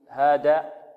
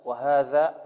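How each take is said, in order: First: The dh sound is said the colloquial way. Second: The dh sound is said with the tongue tip. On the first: The speaker calls it wrong. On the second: The speaker calls it right.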